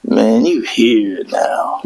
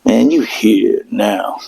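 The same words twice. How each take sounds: First: Slow, low demonic whisper. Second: Low, slow demonic growl. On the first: Marine greeting recruits off the plane in a slow demonic whisper. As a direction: breathe it out like a demon. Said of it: "in the most demonic way". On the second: GPS greeting him as a demon, slow and low. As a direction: drag it out like a demon. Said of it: "it goes". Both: Retold or imitated.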